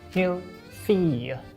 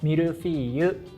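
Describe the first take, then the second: First: It is pronounced with French sounds. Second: It is pronounced with Japanese sounds. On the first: "French people, please correct my pronunciation" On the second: "In Japanese, we say mille-feuille"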